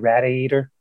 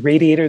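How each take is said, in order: First: It is said in a Pennsylvania accent. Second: It is said in a general American accent. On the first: "They say radiator" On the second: "They don't say radiator"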